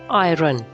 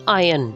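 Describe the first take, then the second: First: The R sound is clearly pronounced. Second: The R sound is not pronounced. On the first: The speaker calls it wrong. "not iron" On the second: The speaker calls it right. "The R should be silent"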